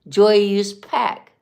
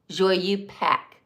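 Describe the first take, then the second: First: A z sound links the two words. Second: No z sound links the two words. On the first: The speaker calls it right. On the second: The speaker calls it wrong.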